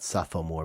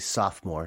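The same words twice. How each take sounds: First: The word is said with three syllables. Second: The word is said with two syllables. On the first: The speaker calls it wrong. "not sophomore" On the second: The speaker calls it right. "So we say sophomore"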